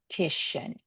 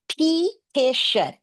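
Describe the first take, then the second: First: The first vowel is reduced to a schwa. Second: The first vowel is a full, unreduced sound. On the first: "Let's flex the E to a schwa" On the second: "they read"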